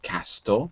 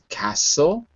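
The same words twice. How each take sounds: First: The t sound is clearly pronounced. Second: The t sound is left out. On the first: The speaker calls it wrong. "not castle" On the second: The speaker calls it right. "the T is always silent in words like castle"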